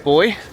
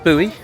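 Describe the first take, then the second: First: Buoy sounds like boy, British style. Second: Buoy sounds like boo-ee, American style.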